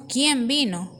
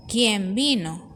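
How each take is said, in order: First: ¿quién vino? read as a plain question, falling on quién; asked as a question. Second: ¡quién vino! drawn out slowly, as an exclamation. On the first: Teacher reads the example to students as a question. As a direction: ask ¿quién vino? simply. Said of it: "una pregunta". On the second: Teacher reads the example to students as a slow exclamation. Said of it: "es una admiración, una exclamación". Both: Shown as a demonstration.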